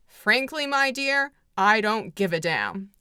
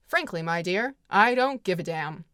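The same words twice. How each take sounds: First: Famous line. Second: A slightly lower, flatter take of the famous line. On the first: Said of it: "which is the famous line in the movie". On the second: Clark Gable dismissing Scarlett, in a slightly lower cool take. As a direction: toss it off coolly, lower. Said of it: "which is a very famous line". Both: Retold or imitated.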